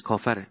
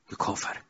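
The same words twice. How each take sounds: First: Said in the usual way. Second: Hushed aside. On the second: Acted. Preacher to congregation, hushed whisper. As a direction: whisper the verdict under the breath. Preacher labels Satan an unbeliever.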